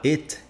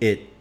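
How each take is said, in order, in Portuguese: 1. O som do T final é claramente pronunciado. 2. O som do T final é omitido. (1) "Ao invés de eu falar it" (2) "a gente não costuma pronunciar o T no final das palavras"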